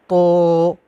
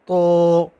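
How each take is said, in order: The two takes are said the same way.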